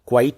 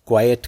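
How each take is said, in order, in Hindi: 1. यह शब्द एक अक्षर में बोला जाता है। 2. यह शब्द दो अक्षरों में बोला जाता है। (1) "इसको क्वाइट नहीं" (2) "क्वाइट कहते हैं"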